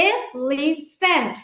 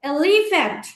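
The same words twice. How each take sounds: First: elephant slowly as এ, লি, ফ্যান্ট; three separate beats in elephant with clear gaps; split into syllables. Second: Said in the usual way. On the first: Shown as a demonstration. Teacher showing three syllables of elephant, elephant broken slowly apart. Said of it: "এখানে তিনটা syllable আছে". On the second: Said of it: "এরপর দেখো".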